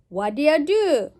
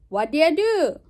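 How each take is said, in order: First: 'Do you' is run together quickly into a shortened form. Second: The same.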